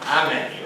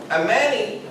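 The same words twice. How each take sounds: First: "Amani" said with a deeper opening vowel; deeper Arabic inflection. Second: Said in the usual way. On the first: Shown as a demonstration. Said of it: "supposed to be a deeper, um, inflection in my voice". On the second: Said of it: "I think I'm supposed to say".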